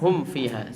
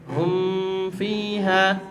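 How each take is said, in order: First: The m is closed clearly before the f. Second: The m is hidden with a long nasal hum. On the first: The speaker calls it right. "padahal yang benar adalah" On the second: The speaker calls it wrong. "dikiranya ini adalah ikhfa. Jadi dibacanya"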